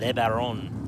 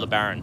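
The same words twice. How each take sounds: First: It is pronounced in a fancy, French-sounding way. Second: It is pronounced in a plain, everyday English way.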